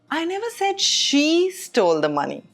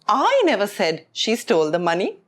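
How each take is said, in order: First: The stress falls on the word she. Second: The stress falls on the word I. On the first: Someone other than her did it. "which means it wasn't her" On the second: Someone else said it. "which means I didn't say it, someone else said"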